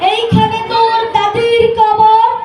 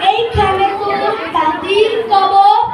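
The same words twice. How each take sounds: First: It is recited in a grand, speechmaking voice. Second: It is recited thickly, as if with a full mouth. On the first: A politician is reciting. "একজন রাজনীতিবিদ" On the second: Someone chewing betel is reciting. "যে পান খায় সবসময়"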